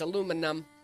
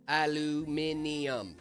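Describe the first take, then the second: First: The word is said the American way. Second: The word is said the British way. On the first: The speaker calls it right. "It's aluminum. I'm right" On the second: The speaker calls it wrong. "Nope, it's aluminum"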